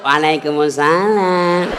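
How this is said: It is said in a soft, sultry, swaying voice.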